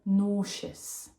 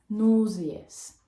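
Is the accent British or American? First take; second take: American; British. First: It is said in an American accent, two syllables. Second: It is said in a British accent, three syllables.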